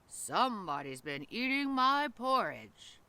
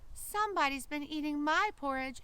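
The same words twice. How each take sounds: First: It is said in a big, deep, growly voice. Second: It is said in a small, high, shrill voice. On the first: A large creature is speaking. "in his great big growly voice" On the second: A tiny creature is speaking. "in his shrill little voice"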